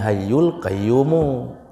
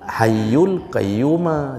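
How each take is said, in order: First: The final word ends with a 'mu' sound. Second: The final word ends with a 'ma' sound. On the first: The speaker calls it right. "kalau mau hayyul temannya mu" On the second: The speaker calls it wrong. "Itu dalam kaedah salah"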